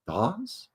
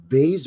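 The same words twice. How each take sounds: First: "vase" with a broad ah, like "vahz"; alternative pronunciation. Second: "vase" with a long ay, rhyming with "days"; alternative pronunciation. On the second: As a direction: say "vase" as "vayz". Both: Shown as a demonstration. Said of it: "a small vase or vase".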